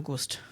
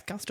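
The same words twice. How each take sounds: First: "Gust" with a short "oo" as in "put"; Gust with rounded vowel. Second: "Gust" with an open "ah" sound, like "gast"; Gust with open vowel. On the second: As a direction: pronounce "Gust" to rhyme with "cussed". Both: Shown as a demonstration. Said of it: "I've heard it pronounced both ways".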